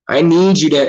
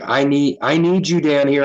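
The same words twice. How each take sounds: First: Higher, louder mock yell; all-caps yelling. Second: Said in the usual way. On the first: Coworker texting him to the warehouse office, mock yell. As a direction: imitate a text typed in capitals, punched louder. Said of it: "It's all caps and exclamation points". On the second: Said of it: "she's like".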